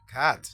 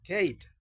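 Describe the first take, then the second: First: The vowel sounds like the 'a' in 'cap'. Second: The vowel sounds like the 'a' in 'cake'. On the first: The speaker calls it right. "sino que decimos cat" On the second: The speaker calls it wrong. "ya no diríamos como Kate"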